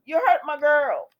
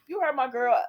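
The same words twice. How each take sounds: First: Angry shout. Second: Scolding. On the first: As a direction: yell it higher and louder at Adam. Host repeats, louder and higher. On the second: Host scolds character Adam. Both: Pretend.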